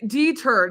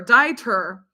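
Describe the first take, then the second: First: "deter" said as DEE-ter; "deter" as DEE-ter, stressed up front; first pronunciation. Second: "deter" said as DIE-ter; "deter" as DIE-ter, rhyming with lighter; second pronunciation. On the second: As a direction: say "deter" with an eye sound first. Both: Shown as a demonstration. Tries two readings of a name.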